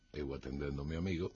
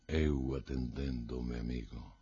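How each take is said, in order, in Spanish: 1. Se lee de forma plana, como un anuncio neutral. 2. Se lee con una voz desesperada y angustiada. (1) "parece que está, bueno, pues en una emisora de radio" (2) "con voz desesperada"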